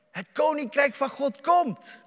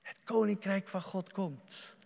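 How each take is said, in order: First: Higher, louder ringing proclamation; proclaimed. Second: Softer, hushed repetition; quiet echo. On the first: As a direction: declare it out loud to the congregation. Quote then quiet repeat. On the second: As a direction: let it sink in, said softly. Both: Acted.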